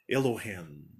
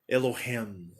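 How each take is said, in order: First: It is said with an American pronunciation. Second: It is said with an American pronunciation.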